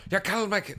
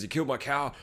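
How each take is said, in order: First: Higher, mangled non-English-speaker voice; mock garbled English. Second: Said in the usual way. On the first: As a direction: slur it as if barely speaking English. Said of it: "they don't speak English". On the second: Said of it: "went out to get revenge".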